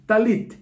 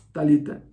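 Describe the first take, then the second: First: Talit with no final vowel, ending on a crisp t; Talit, two syllables, stress on -lit; correct form. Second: Talita with a final -a, as the name; mistaken form. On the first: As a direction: say Talit, stopping on the t. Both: Shown as a demonstration. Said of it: "Talit es el manto de oración".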